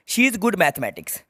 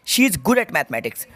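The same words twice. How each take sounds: First: Slow reading. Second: Slow reading with answer. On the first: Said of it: "reads the question slowly". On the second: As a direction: answer read out slowly, stressing at. (at भरकर धीरे पढ़ना) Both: Shown as a demonstration.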